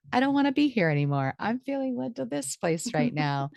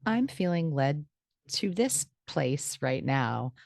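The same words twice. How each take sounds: First: Higher-pitched, playful change of mind; light, high voice of a fresh whim; sudden new impulse. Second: Said in the usual way. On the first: Acted. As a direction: act out being pulled somewhere new.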